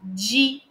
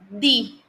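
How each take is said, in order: First: The d is said without the tongue between teeth. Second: The d is said with the tongue between teeth. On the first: This is the Portuguese way of saying it. The speaker calls it wrong. "no português a gente fala dia" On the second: This is the Spanish way of saying it. The speaker calls it right. "ó língua no meio dos dentes"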